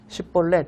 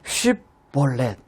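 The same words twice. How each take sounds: First: The first sound is said weakly. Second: The first sound is said strongly. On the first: This is the dialect pronunciation. The speaker calls it wrong. "근데 그렇게 발음 못하는 겁니다. 쉽볼렛 이렇게 발음을 한 거죠" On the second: This is the standard pronunciation. The speaker calls it right. "강하게 해야 되거든요"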